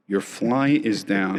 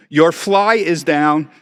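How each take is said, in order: First: Said in the usual way. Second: Loud, slow, high exclamation; reading the note aloud. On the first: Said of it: "And I'm looking". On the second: Retold or imitated. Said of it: "it says".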